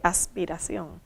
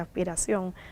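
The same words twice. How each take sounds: First: The s is a clear hissing sound. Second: The s is breathed out as an h. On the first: "no dije aspiración" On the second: "en la palabra dije aspiración"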